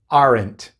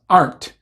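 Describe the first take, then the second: First: The word is said carefully in its full form. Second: The word is said quickly in a reduced form. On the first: This is the proper pronunciation. "pero se pronuncia realmente aren't" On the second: This is how it sounds in fast casual speech. "Cuando hablamos rápido, a veces decimos aren't, así nomás"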